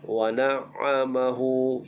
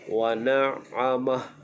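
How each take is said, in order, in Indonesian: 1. Kata ini berakhir dengan vokal 'hu' penuh. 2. Kata ini berakhir pada bunyi 'h' tanpa vokal. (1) "jangan waqaf wa na'amahu, itu salah" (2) "Waqaf dengan wa na'amah, sukunkan ha"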